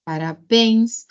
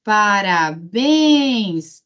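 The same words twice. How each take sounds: First: Said in the usual way. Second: "Parabéns" drawn out very slowly; "Parabéns" with a long, swelling last syllable; calling the word. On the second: Shown as a demonstration. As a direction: call out "Parabéns", lingering on BÉNS. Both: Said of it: "chama a palavra".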